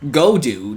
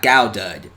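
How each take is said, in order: First: The name starts with 'go' and ends 'dude'. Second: The name starts with 'gow' and ends 'dud'. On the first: The speaker calls it right. "it's Go Dude" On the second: The speaker calls it wrong. "not Gowdud"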